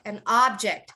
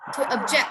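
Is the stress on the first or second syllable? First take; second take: first; second. First: The stress is on the first syllable. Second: The stress is on the second syllable.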